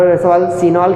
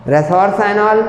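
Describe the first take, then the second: First: "रेसोरसिनॉल" with "सि" as a short see; alternative pronunciation. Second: "रेसोरसाइनॉल" with "साइ" rhyming with sigh; long-i pronunciation. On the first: Teacher giving others' variant, "सि" said like see. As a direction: say "रेसोरसिनॉल" with an ee-like vowel in "सि". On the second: Teacher naming a dihydric phenol, "साइ" said like sigh. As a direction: say "रेसोरसाइनॉल" with an eye vowel in "साइ". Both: Shown as a demonstration. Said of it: "कुछ लोग रेसोरसिनॉल कहेंगे".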